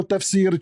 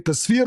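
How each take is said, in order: First: Said in the usual way. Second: "Tasfir" said with S before F; mimicked mispronunciation. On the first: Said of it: "this is not an accent". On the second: Debater makes opponent choose a word, mimicked mispronunciation. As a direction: copy the slip, "Tasfir", swapping F and S. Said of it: "You are saying Tasfir".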